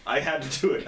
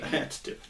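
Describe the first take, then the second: First: I had to do it said voiced and a bit higher; voiced line. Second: I had to do it whispered, no voice. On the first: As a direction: give I had to do it in an acted voice. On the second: Retold or imitated. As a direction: breathe I had to do it as a secret. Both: Repeats the line twice.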